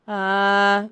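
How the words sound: The sound is clear and balanced.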